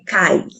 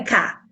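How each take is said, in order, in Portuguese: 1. A sílaba termina em ditongo ai. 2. A sílaba termina em vogal simples a. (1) "é cai" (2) "não é cá"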